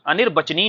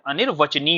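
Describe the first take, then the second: First: अनिर्वचनी with a "b" in place of "v"; wrong pronunciation. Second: अनिर्वचनी with a "v" after "anir"; correct pronunciation. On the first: Teacher rejects the common form, mispronounced. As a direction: say a hard "b" after "anir" in अनिर्वचनी. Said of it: "नहीं होता है". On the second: Teacher gives students the standard form, correctly pronounced. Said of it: "क्या होता है". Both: Shown as a demonstration.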